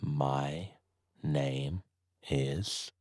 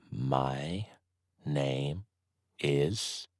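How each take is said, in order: Both takes have the same delivery.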